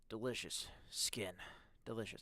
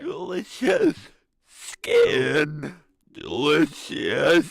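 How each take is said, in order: First: It is said in the speaker's normal voice. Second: It is said in a deep, scary put-on voice. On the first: "I'm not gonna do the voice" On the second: "do a scary voice"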